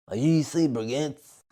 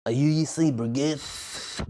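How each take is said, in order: First: Soft, slow imitation of a girl; slow, soft girl impression; mimicking a girl. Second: Slow, soft imitation of a girl; slow, soft girl impression; mimicking a girl. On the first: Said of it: "That's how she sounded". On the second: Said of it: "It's exactly her voice". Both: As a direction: mimic her quiet question.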